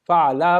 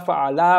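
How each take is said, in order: The two takes are said the same way.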